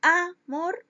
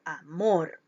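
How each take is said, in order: First: "amor" said as "Á-mor", first syllable punched; stress on first syllable. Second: "amor" said as "a-MOR", final syllable punched; stress on last syllable. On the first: Teacher testing the stress for pupils, first syllable hit in "amor". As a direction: wrongly lean on the "a" of "amor". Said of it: "En dónde cargo la intensidad de la voz". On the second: Teacher testing the stress for pupils, last syllable hit in "amor". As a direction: lean hard on the "mor" of "amor". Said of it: "En la última sílaba". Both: Shown as a demonstration.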